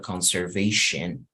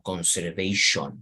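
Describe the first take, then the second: First: The last syllable sounds like 'shen'. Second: The last syllable sounds like 'shun'. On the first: The speaker calls it right. "Imagínense que la O fuera una E y así pronunciarlo conservation" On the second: The speaker calls it wrong. "y no tanto como conservation"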